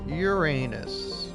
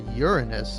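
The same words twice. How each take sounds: First: It is pronounced so it sounds like the pun. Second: It is pronounced so it avoids the pun.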